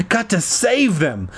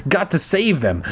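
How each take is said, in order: The two takes are said the same way.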